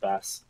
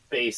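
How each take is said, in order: First: The vowel sounds like the one in 'mass'. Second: The vowel sounds like the one in 'face'. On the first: This is the habitual pronunciation. "but I've always pronounced it Bass" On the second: This is the intended, music-themed name. "I'm sure, is how it's supposed to be pronounced"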